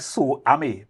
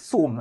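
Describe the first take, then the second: First: The name is spread over two syllables. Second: The name is said as one syllable. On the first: The speaker calls it wrong. "I say Sue Amy" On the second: The speaker calls it right. "the correct pronunciation is Soom"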